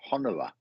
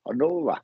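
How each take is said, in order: First: Honora with a short, unstressed middle o; trying the name. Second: Honora with a long middle o; name sounded out. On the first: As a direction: try Honora stressed on the first syllable. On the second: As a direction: lean on the NO in Honora. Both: Shown as a demonstration. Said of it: "there you go then".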